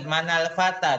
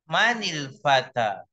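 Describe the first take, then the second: First: An 'a' vowel joins the two words. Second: An 'i' vowel joins the two words. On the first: The speaker calls it wrong. "bukan manal fata" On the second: The speaker calls it right. "tapi manil fata"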